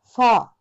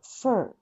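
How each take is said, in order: First: "fur" with a heavy, loud rolled-up r; overdone r. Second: "fur" with only a small, light r lift. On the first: Teacher showing students the bad fur, loud heavy r. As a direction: push a big exaggerated r into "fur". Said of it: "一番嫌なのは、Rが入る時に". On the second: Teacher showing students the good fur, small r. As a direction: keep the r in "fur" tiny and soft. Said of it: "これをこうちっちゃく". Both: Shown as a demonstration.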